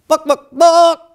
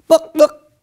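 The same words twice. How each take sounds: First: High, loud hen squawk "Book, book, book!"; chicken clucking. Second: High, loud hen squawk "Book, book!"; chicken clucking. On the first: Chicken asks for more books. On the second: Chicken asks for books. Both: Acted.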